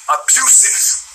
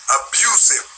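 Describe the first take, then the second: First: Unvoiced whisper, pitched up; whispered word. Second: Said in the usual way. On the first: Real, not acted. Ranting vlogger whispers the word he was searching for. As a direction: breathe the word out as he finds it.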